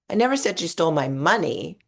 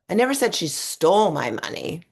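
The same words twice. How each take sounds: First: The stress falls on the word 'money'. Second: The stress falls on the word 'stole'. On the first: Something else was taken. "It was my credit cards that are missing" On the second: It was only borrowed. "I think she just borrowed it"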